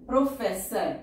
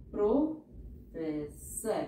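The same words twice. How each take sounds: First: Said in the usual way. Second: professor stretched very slowly; slow teacher dictation. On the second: Shown as a demonstration. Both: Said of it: "teacher says word then dictates".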